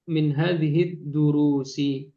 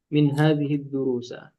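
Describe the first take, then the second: First: The last word ends in an 'i' vowel. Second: The last word ends in an 'a' vowel. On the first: The speaker calls it right. "yang betul ya" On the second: The speaker calls it wrong. "bukan min hadhihi durusa"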